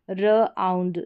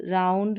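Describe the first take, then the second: First: र आउंड in two parts, "ruh - aund"; sounding out. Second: Said in the usual way. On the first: Shown as a demonstration. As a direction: hold र apart from आउंड. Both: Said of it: "इसका उच्चारण आउंड करके".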